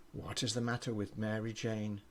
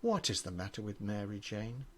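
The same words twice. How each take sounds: The two takes are said the same way.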